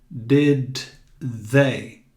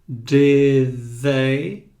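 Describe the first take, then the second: First: The th in they does not sound like d. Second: The th in they sounds like a d. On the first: The speaker calls it wrong. "Você não vai dizer did they" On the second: The speaker calls it right. "Este T H tem um som de D"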